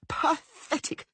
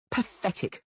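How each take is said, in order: First: Much higher shriek on the repeat. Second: High scornful cry, falling at the end; scornful shout. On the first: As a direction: top the first one, even shriller. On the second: Blonde woman mocks Dandelion in bed, scornful. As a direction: spit the word out in contempt. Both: Acted. Jilted woman screams insult.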